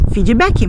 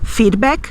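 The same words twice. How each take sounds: First: It is said with a Brazilian Portuguese pronunciation. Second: It is said with an English pronunciation.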